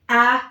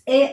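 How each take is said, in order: First: The letter is said with an open 'ah' vowel. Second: The letter is said as its English name. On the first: "You want to learn Swahili pronunciation" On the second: "But in English, remember it's a"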